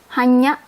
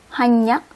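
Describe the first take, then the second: The two takes are said the same way.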